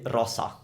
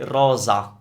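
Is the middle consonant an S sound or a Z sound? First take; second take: S sound; Z sound. First: The middle consonant is a hissing s sound. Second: The middle consonant is a buzzing z sound. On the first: The speaker calls it wrong. "We don't say rosa" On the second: The speaker calls it right. "So that's a Z sound"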